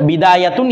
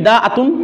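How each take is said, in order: First: A y sound joins the two middle vowels. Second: A glottal stop separates the two middle vowels. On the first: "ইয়া দিয়া" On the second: "এখানে হামজা দিয়ে দিয়েছে"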